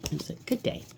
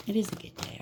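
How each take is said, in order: First: Said in the usual way. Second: Is lifted high and leaned on, rest soft; stress on is. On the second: Real, not acted. Reader correcting herself to the present, stressing is. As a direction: correct yourself by leaning on is.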